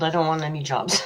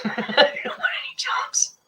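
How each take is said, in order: First: Said in the usual way. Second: High breathy giggling whisper; laughing whisper. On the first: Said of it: "said plainly first". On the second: Real, not acted.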